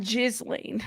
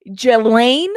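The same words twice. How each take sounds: First: Ghislaine said slowly as "JIZ-lain"; mispronunciation. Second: Ghislaine said "juh-LAIN", loud with rising end; correct pronunciation. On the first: Host showing viewers the wrong Ghislaine, JIZ-lain. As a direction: sound the S in Ghislaine as a Z. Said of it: "not Ghislaine". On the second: Host showing viewers how to pronounce Ghislaine, juh-LAIN. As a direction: stress the second half of Ghislaine, no S sound. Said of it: "how to pronounce her name". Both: Shown as a demonstration.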